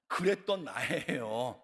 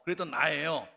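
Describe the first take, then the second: First: Slow stretched line. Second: Said in the usual way. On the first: Shown as a demonstration.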